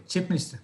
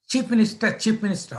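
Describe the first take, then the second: First: Said in the usual way. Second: Higher, irritated echo; mad chief sub. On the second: Retold or imitated. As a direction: throw the title back as an annoyed boss. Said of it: "he was mad that day".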